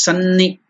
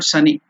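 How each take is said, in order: First: The n sound is doubled and stressed. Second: The n sound is short and unstressed. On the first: The speaker calls it right. "so you have to stress it" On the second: The speaker calls it wrong. "it's not sunny"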